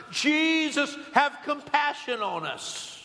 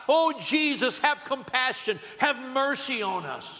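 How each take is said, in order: First: High, drawn-out imitated cry for pity; insistent retold plea, pitched high and slowing; crying out louder. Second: High, pleading preacher's call; raised-voice mock plea for mercy; crying out for mercy. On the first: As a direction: stretch out the name, calling over a crowd. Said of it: "they probably got louder and louder". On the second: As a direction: call out as a blind beggar in a crowd. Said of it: "to the top of their voices they were crying out".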